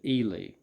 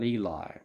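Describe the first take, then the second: First: The name rhymes with the word freely. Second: The name does not rhyme with freely. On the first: The speaker calls it right. "he pronounces it Ely ... Ely to rhyme with freely" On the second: The speaker calls it wrong. "not Eli"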